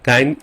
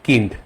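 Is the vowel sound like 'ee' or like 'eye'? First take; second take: eye; ee. First: The vowel sounds like 'eye', English style. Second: The vowel sounds like short 'ee', German style. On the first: The speaker calls it wrong. "কাইন্ড English হতো" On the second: The speaker calls it right. "জার্মানে এটা হবে কিন্ড"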